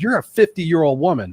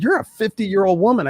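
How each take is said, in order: First: Mild mock scolding, a little louder; retold anger. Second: Higher-pitched retold scolding; retold anger, higher. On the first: Son tells his aging mother to act her age, mildly angry. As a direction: scold her lightly in the retelling. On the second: Son repeats the rebuke to his mother, higher and angrier. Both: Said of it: "One time I got mad at her".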